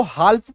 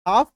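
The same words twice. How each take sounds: First: "हाल्फ" with the L sounded before the F; spelling pronunciation. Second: "हाफ" with a long A straight into F; silent L. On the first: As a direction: read "हाल्फ" as spelt, L included. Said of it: "लग रहा है कि इसको हाल्फ पढ़ ले". ("हाल्फ" में ल बोलकर) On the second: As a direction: say "हाफ", leaving out the L. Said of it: "लेकिन नहीं". ("हाफ" में ल silent) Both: Shown as a demonstration.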